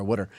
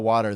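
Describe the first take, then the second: First: "water" said as "wooder", the t turned into a soft d; Philly water. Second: Said in the usual way. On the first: Shown as a demonstration. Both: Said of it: "that's what they call water there".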